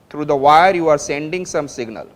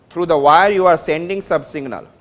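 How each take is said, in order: Both takes have the same delivery.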